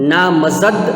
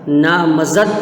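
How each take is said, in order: Both takes have the same delivery.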